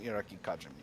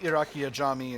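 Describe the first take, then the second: First: The second word begins with a K sound. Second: The second word begins with a vowel sound. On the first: The speaker calls it wrong. "I was calling the state Iraqi Kajami for a long time" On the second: The speaker calls it right. "it's certainly closer"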